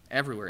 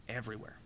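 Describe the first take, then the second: First: "Everywhere." restated firmly at full voice with a falling end; emphatic repeat. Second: Almost under the breath, trailing away on "everywhere."; dropping to a hush. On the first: Preacher to congregation, repeating the word firmly for emphasis. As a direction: plant "Everywhere." back at normal volume, decisive. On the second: Preacher to congregation, letting the word fade very softly. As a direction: let "everywhere." fade to a near whisper. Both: Real, not acted.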